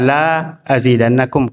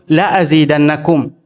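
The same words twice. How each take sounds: First: The first vowel is drawn out long. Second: The first vowel is short and quick. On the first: I will not increase you. The speaker calls it wrong. "Jangan juga dibaca la azidannakum karena bermakna tidak" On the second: I will surely increase you. The speaker calls it right. "harus dibaca cepat"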